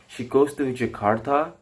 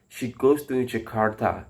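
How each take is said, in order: First: The pitch goes higher on the last word. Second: The pitch stays low on the last word. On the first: It asks a question. "with a high, higher tone in the last word" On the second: It gives information. "with a different tone in the last word"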